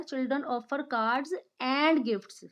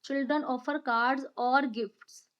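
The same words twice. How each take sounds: First: Put-on "and" clearly stressed in Children offer cards and gifts, said slowly. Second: Put-on "or" stressed in Children offer cards or gifts, said slowly. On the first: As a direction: slowly lean on the corrected word "and". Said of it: "So what will be there?". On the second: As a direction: slowly lean hard on "or". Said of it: "I am putting stress on or word". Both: Shown as a demonstration.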